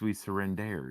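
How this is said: The phrase is said with a French accent. "It's surrender if you're French"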